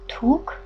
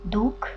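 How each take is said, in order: First: It is said in Western Armenian pronunciation. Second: It is said in Eastern Armenian pronunciation.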